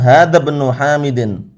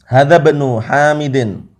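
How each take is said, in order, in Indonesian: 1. Kedua kata disambung, dengan bunyi i dihilangkan. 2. Kedua kata disambung, dengan bunyi i dihilangkan.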